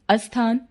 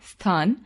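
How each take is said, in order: First: An extra vowel sound comes before the word. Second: The word starts directly with the consonant cluster. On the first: The speaker calls it wrong. "अनावश्यक स्वर या व्यंजन जोड़ने की अशुद्धियां: अशुद्ध" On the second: The speaker calls it right. "शुद्ध"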